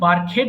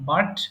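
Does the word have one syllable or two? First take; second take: two; one. First: The ending is said as an extra syllable. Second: The ending is a bare t sound. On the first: The speaker calls it wrong. "এটা কিন্তু বার্কহেড হবে না" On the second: The speaker calls it right. "উচ্চারণ হবে বার্ক, বার্কড"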